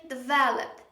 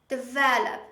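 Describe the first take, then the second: The two takes are said the same way.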